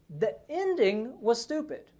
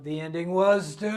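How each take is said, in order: First: The stress is on the word ending. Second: The stress is on the word stupid.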